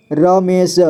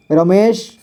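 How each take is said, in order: First: रमेश split as र, मे, श; syllable by syllable. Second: Said in the usual way. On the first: Shown as a demonstration. Teacher showing learners रमेश, sounded out in parts. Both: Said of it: "इसे पढ़ेंगे".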